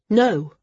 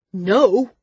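First: Raised, firm "No"; a contained but emphatic no; firm refusal. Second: Loud, raised-pitch outraged "No!"; narrator's acted shriek, moderately strong; shrieked refusal. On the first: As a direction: refuse in one short word. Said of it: "said Maris". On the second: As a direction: cry out the word in fury. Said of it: "He shrieked the word". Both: A narrator's reading.

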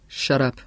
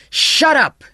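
First: Said in the usual way. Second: Loud, high-pitched furious shout; roared. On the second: A narrator's reading. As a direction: roar to silence the hysterical girl. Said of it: "he roared".

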